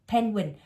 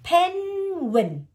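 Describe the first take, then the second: First: Said in the usual way. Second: PENGUIN drawn out high, the first syllable held long; syllables separated. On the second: Shown as a demonstration. Teacher sounding out a word for a pupil, syllables separated. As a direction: stretch "Penguin" slowly, syllable by syllable. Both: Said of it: "cô [name] tách cái âm nó ra nè".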